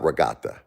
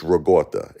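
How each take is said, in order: First: Regatta with an open AH, "ruh-GAHT-uh"; non-Brooklyn ricotta. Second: Regatta with an AW in the middle, "ruh-GAWT-uh"; Brooklyn ricotta. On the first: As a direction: say regatta as "ruh-GAH-tuh". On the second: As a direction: say regatta as "ruh-GAW-tuh", Brooklyn style. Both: Shown as a demonstration. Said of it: "It's not regatta".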